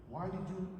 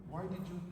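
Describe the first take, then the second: No difference in how they are said.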